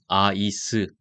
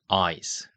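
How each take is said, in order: First: Said Korean-style with an extra final vowel. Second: Said English-style with no extra final vowel. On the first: The speaker calls it wrong. "아이스 아니고요" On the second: The speaker calls it right. "ice 이렇게 읽습니다"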